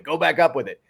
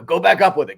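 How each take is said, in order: First: Lighter coach echo. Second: High, loud coach yelling from the sideline; mock coach shout. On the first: Retold or imitated. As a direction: echo the shout, less forcefully. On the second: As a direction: bark it like a coach after a rebound. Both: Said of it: "would just shout".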